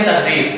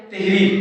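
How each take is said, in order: First: تحریر as tah-reer; tah-reer, not teh-reer, for تحریر; zabar on te. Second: تحریر as teh-reer; teh-reer, not tah-reer, for تحریر; common mispronunciation. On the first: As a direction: say تحریر with a short a after the t. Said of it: "تے کے اوپر زبر ہے". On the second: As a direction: say تحریر with an e in the first syllable. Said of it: "حالانکہ یہ غلط ہے". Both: Shown as a demonstration.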